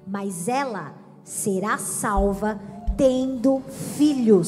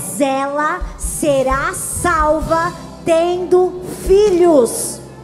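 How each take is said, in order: First: It is read plainly, without a preaching manner. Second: It is read in an emphatic preacher's voice.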